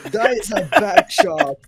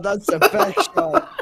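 First: Breathless laughing whisper. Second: Laughing. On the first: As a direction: wheeze it out through laughter. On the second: Hyped over a hit. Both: Real, not acted.

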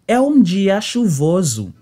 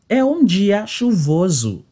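The two takes are said the same way.

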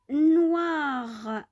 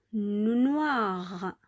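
First: Noir, higher and louder, wa stressed; teaching the wa sound. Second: Noir whispered, wa clear; whispered model word. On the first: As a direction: call out noir to model it. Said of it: "donne le son W". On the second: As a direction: whisper noir so they listen. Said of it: "donne le son wa". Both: Shown as a demonstration.

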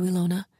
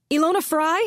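First: "Ilona" said gently and calm, not shouted; softly. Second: "Ilona Fry" called out high and loud with a rising end; shouting. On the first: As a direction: say "Ilona" soft and reassuring. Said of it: "Maddie said softly". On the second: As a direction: shout "Ilona Fry?" through the door, higher and louder. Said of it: "pounded on Ilona Fry's door and shouted". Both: Acted.

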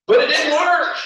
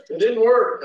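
First: High, loud burst of a punchline; big comic declaration; loud exclaim. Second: Said in the usual way. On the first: Retold or imitated. Laughing punchline of ears story.

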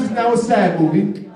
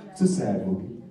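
First: Said in the usual way. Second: Much lower, much softer and mournful; low, soft sad-movie voice. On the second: Shown as a demonstration. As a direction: drop into sorrow for the sad film.

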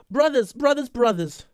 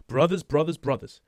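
First: High, strained mock singing of the word; wrong version. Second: Said in the usual way. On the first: Shown as a demonstration. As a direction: belt it up high like a bad imitation. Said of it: "I don't think it sounds like that". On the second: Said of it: "He sounds like, yeah".

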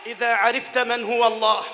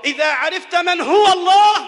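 First: Said in the usual way. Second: إذا عرفت من هو الله said higher and louder, rising on الله; rising refrain. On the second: Acted. Preacher rousing the congregation, repeating the refrain louder. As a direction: lift الله up with a rising call.

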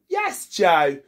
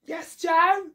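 First: Said in the usual way. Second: High rising question; answering a call with a question. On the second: Acted. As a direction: ask it back brightly, pitch up.

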